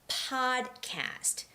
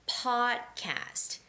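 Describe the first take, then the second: Both takes have the same delivery.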